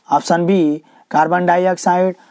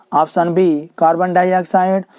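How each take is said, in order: The two takes are said the same way.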